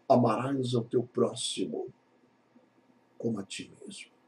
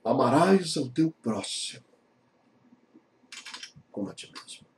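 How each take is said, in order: First: Quiet, reverent reading of amarás ao teu próximo; hushed scripture line; soft solemn quote. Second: Soft, fading reading of amarás ao teu próximo; whispered scripture ending; hushed reverent quote. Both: Acted. Jesus' words quoted softly.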